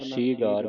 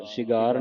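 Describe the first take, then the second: First: ਸੀਗਾਰ with a long "ee"; long first vowel. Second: ਸੀਗਾਰ with a short first "i"; wrong short vowel. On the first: Teacher corrects the reading, ਸੀਗਾਰ with long "ee". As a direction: say ਸੀਗਾਰ as "seegaar". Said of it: "Bihari ਦੇ ਨਾਲ". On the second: Teacher shows what not to read, ਸੀਗਾਰ with short "i". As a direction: say ਸੀਗਾਰ as "sigaar". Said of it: "ਸੀਗਾਰ ਨਹੀਂ ਪੜ੍ਹਨਾ". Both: Shown as a demonstration.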